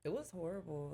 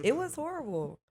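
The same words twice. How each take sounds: First: Softly spoken, away from the microphone; quiet first attempt, not projected; off the mic. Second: Raised, projected restatement; higher and firmer, now on mic. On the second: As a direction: speak up clearly into the microphone. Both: Real, not acted. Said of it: "Talking to the mic".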